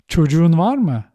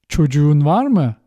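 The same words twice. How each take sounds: The two takes are said the same way.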